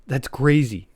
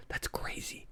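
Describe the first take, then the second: First: Said in the usual way. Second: Whispered, almost voiceless aside; stunned, very soft whisper; hushed disbelief. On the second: Real, not acted. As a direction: whisper it under your breath in disbelief. Stunned repeat of monkey war story.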